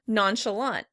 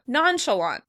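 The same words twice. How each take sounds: First: The stress is on the last syllable. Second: The stress is on the first syllable. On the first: "In American English, we would pronounce it on the last syllable" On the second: "In British English, it would be stressed on the first syllable"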